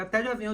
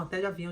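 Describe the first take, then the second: First: Higher, startled repeat; incredulous echo. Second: Said in the usual way. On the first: Retold or imitated. Child echoes mother's travel prediction, mildly incredulous. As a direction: echo it back in mild disbelief.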